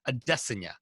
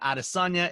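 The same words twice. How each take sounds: First: The name is said the Nigerian way. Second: The name is said a non-Nigerian way. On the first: The speaker calls it right. "the Nigerian pronunciation that now I've been corrected on" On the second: The speaker calls it wrong. "it's not Adesanya"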